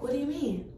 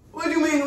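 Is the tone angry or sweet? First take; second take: sweet; angry. First: It is said in a sweet, gentle tone. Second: It is said in an angry, aggressive tone. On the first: This is how it was actually said. "I'm giving an angel. I'm just like" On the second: This is what was thought, not said aloud. "I didn't say it like that, of course"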